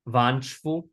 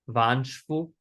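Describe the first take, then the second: No difference in how they are said.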